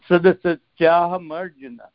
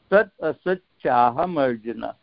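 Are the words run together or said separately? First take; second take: run together; separately. First: The words are run together as one stream. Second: The words are said as separate parts. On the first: "That's the Sanskrit way" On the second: "for the easier way to pronounce it"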